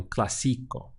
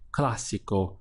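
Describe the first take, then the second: First: Clásico wrongly stressed cla-SI-co; stress on second syllable. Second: Clásico stressed CLA-si-co; stress on first syllable. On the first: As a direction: stretch the middle syllable, cla-SI-co. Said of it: "rather than clásico". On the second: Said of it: "stress the right part of the word". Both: Shown as a demonstration.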